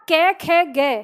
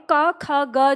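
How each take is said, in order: First: कै, खे, गे each with an audible "e" vowel at the end; consonants ending in e. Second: क, ख, ग each with an inherent "a" vowel at the end; consonants ending in a. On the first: Teacher shows learners the added vowel, कै, खे, गे ending in "e". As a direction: sound out कै, खे, गे with trailing "eh". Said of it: "बोल रहे हैं". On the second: Teacher shows learners the inherent vowel, क, ख, ग ending in "a". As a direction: sound out क, ख, ग as "ka, kha, ga". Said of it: "अंत में जो ये ए और अ की ध्वनि". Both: Shown as a demonstration.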